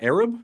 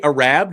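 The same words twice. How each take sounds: First: The first vowel is a short A sound. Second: The first vowel is a long A sound.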